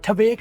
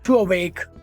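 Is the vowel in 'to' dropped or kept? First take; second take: dropped; kept. First: The vowel of 'to' is dropped and merged. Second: The vowel of 'to' is kept before the next word. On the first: The speaker calls it wrong. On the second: The speaker calls it right.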